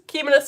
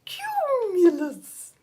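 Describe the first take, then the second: First: Said in the usual way. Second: High, drawn-out swooping voice; silly cloud voice. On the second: Shown as a demonstration. Teacher acting out a cumulus cloud, silly high slow voice. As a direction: stretch it out high, sliding down at the end.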